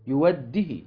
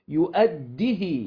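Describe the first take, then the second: First: A w glide replaces the glottal stop. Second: A glottal stop is heard in the middle. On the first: "هنقول فيها يوده" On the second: "وتبدل هذه أيضا"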